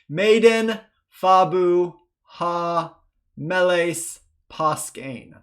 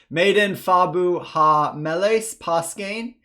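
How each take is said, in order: First: It is read slowly. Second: It is read faster.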